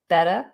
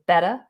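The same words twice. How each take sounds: First: The middle T sounds like a D. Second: The middle T sounds like a D.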